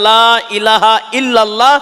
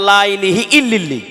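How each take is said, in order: First: The vowels are pronounced as clear 'a' sounds. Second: The vowels are pronounced as 'i' sounds. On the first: "আমি রিপিট করছি" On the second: "ততবার বলছে"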